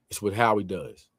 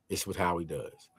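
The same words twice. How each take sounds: First: Said in the usual way. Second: Softer repeat, almost to himself; quiet echo. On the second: Shown as a demonstration. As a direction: drop it down as a quiet afterthought.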